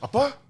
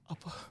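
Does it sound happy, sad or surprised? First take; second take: surprised; sad. First: It is said in a surprised tone. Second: It is said in a sad tone.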